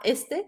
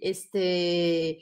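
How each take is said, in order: First: The word is said short and clipped. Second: The final sound is drawn out long. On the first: The speaker calls it wrong. "on ne dit pas este" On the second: The speaker calls it right. "on prolonge la syllabe ou le son. ... on dit este"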